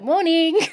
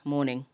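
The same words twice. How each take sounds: First: It is said brightly and cheerfully. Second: It is said flatly and grumpily.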